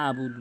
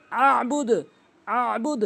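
First: Ordinary vowel starting আবুদ; mispronounced without ayn. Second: Higher আবুদ with squeezed throat sound; throaty held ayn in আবুদ; correct ayn. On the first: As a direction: lower আবুদ with plain open a. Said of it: "অনেকে ভুল বলে". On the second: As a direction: press mid-throat before the b of আবুদ. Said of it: "এভাবে বলতে হবে". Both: Shown as a demonstration.

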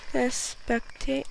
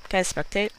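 First: Higher, slow stretched-out wording; drawn-out question. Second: Said in the usual way. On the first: Pretend. Dead player asking to spectate, drawn-out question. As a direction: stretch "spectate" out in a playful lilt.

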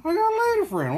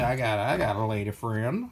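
First: Much higher, playful sing-song boast; high repeat. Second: Said in the usual way. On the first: Pretend. Bragging to chat about his lady friend, much higher and playful. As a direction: bounce it up high and teasing.

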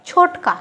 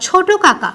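First: ছোটকা run together as "chhotka"; colloquial contracted pronunciation. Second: Said in the usual way. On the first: Shown as a demonstration. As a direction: drop the repeated ka in ছোটকা. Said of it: "অনেকে দেখবে ছোট কাকা না বলে বলে". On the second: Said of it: "ছোট কাকা না বলে বলে".

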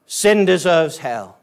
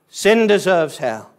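The two takes are said the same way.

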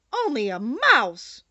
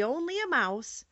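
First: Loud, drawn-out indignation; offended little creature exclaiming loudly; indignant cry. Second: Said in the usual way. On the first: A narrator's reading. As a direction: cry it out slowly, deeply affronted. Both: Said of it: "cried the little animal indignantly".

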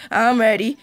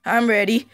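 No difference in how they are said.

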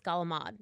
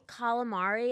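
First: Calamad, last vowel dropped, "gala-mahd"; lower, corrective calamad ending on a D; Italian-American pronunciation. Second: Calamari with all four syllables; American-style calamari, ending on "ah-ree"; standard pronunciation. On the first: Shown as a demonstration. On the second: Retold or imitated. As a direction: say calamari the American way, final "ee" sounded. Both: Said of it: "it's calamad".

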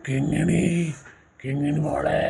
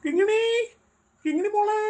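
First: Low, far-off echo of the call; distant echo. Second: Calling out. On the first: Eerie echo answering the father's call across the desert, low and distant. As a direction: sound like the echo coming back from far away. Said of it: "echo കേട്ട്". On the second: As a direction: call for the lost girl far away. Father calling lost daughter. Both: Acted.

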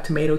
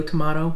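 First: TOMATO with "may" in the middle; long A in TOMATO, as in mate; American pronunciation. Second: TOMATO with "mah" in the middle; broad "ah" in TOMATO; British pronunciation. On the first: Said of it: "Like, we have tomato, tomato". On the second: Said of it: "we have tomato, tomato". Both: Shown as a demonstration.

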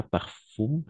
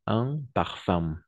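First: Parfum said as parfoom, final u and m spelled out, no nasal; mock the learner's error: parfum with a clear oo and m; wrong pronunciation. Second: Said in the usual way. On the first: Shown as a demonstration. Teacher shows students the wrong way: parfum as parfoom. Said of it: "Pas parfum".

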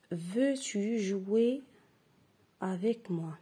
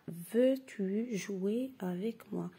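First: Slow, drawn-out reading aloud. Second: Slow, even repeat of the question. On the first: Teacher reading slowly to the class. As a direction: read it slowly for the pupils. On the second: Teacher repeating the sentence slowly for pupils. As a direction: read it again slowly. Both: Shown as a demonstration. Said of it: "Je répète".

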